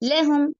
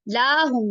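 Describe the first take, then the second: First: The first vowel is kept short. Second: The first vowel is drawn out long. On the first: The speaker calls it right. "लाम के ऊपर ज़बर है" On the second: The speaker calls it wrong. "लाहुम नहीं"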